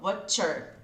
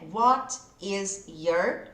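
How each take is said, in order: First: The words are joined into a contracted form. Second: The three words are said separately in full.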